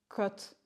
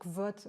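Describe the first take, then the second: First: No v sound is heard after the k. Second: A v sound is heard after the k. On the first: This is the pronunciation the book gives. "il précise bien qu'on dit Kot" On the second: Every letter of the name is pronounced. "on prononce toutes les lettres, donc j'ai tendance à dire Kvot"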